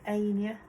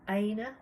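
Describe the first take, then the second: First: The name is said as Ania. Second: The name is said as Aina. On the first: The speaker calls it wrong. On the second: The speaker calls it right.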